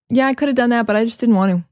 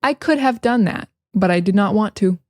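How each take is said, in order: First: "just didn't want to" with Ts dropped; quick everyday American blending; casual reduction. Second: Said in the usual way. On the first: Shown as a demonstration. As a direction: run "could have" together, "want to" without T. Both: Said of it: "we just say".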